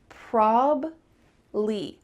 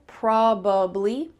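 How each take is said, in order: First: The word is said with two syllables. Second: The word is said with three syllables. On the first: "in fast English, we're going to cut out that middle sound and just have two syllables" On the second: "they'll add that middle syllable"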